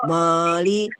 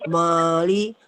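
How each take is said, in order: No difference in how they are said.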